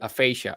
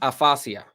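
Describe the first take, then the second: First: The word is pronounced with English sounds. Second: The word is pronounced with Spanish sounds. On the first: "but aphasia" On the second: "In Spanish is aphasia"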